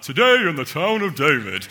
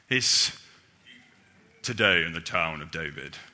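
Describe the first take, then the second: First: A similar put-on voice, but a bit happier. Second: A put-on God voice, less happy in tone. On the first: "Santa's similar, ... It's just a bit happier" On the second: "if you do a God voice"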